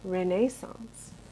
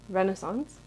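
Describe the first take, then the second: First: It is said in a British accent. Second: It is said in an American accent.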